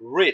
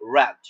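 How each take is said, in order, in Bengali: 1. স্বরটি দীর্ঘ, 'reed' এর মতো। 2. স্বরটি ছোট, 'red' এর মতো। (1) "এটা যখন প্রেজেন্টে থাকবে তখন হবে রেড উচ্চারণ" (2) "যখন এটা আমরা পাস্টে বলবো তখন এই উচ্চারণটা হবে রেড"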